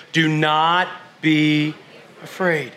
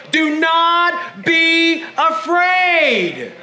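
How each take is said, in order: First: Gentle reassurance. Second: Raised, drawn-out Do not be afraid; emphatic declaration. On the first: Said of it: "Turn to your neighbor and say". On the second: Preacher urging congregation to tell neighbours, emphatic. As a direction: proclaim it, stretching afraid. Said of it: "Turn to your neighbors again and say". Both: Shown as a demonstration.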